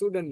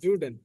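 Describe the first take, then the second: First: The word begins with a voiceless s sound. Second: The word begins with a voiced z sound. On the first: The speaker calls it wrong. "সুডেন না" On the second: The speaker calls it right. "জুডেনই হবে"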